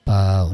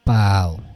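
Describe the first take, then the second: First: The pitch stays level and flat throughout. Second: The pitch moves instead of staying level. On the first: It means bag. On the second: It means thin.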